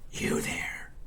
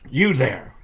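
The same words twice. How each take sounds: First: It is said in a coarse whisper. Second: It is said in a normal speaking voice. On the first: The speaker calls it right. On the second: The speaker calls it wrong.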